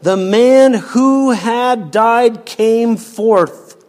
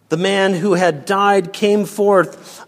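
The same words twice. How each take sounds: First: Slow, louder and higher with "man" stressed; emphasis. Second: Said in the usual way. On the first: Shown as a demonstration. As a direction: lean hard on every word, "man" strongest. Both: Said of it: "Note the emphasis".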